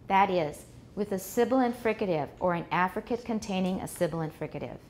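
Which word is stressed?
none. No single word is stressed more than others. The listener cannot tell what is new in the second part. The speaker calls it wrong. "Wrong way. ... Everything has about the same amount of stress"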